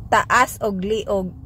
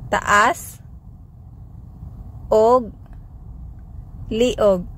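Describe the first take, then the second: First: Said in the usual way. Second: Taas, og, liog spoken separately with pauses; word by word. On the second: Shown as a demonstration. Teacher slowing down the phrase for learners, word by word. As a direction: split it into single words. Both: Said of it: "Sample phrases".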